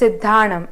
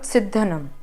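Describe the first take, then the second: First: The a vowel is held long. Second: The a vowel is kept short. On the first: The speaker calls it right. "Here there is a line on top of A. That's why it's Siddhanam" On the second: The speaker calls it wrong. "and not Siddhanam"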